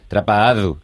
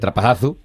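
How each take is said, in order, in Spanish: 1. La consonante cerca del final es un sonido de d. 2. La consonante cerca del final es un sonido de z. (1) "allí es una D" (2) "lo que es la Z"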